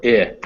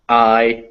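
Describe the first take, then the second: First: "I" said as "ih", the vowel in pin; short I sound. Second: "I" as the "eye" vowel in find; long I sound. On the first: Teacher lists one letter's sounds, "I" as short ih. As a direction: say "I" as a brief "ih". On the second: Teacher lists one letter's sounds, "I" as eye. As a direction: say "I" as a clear diphthong, "eye". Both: Shown as a demonstration. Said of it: "one letter can be".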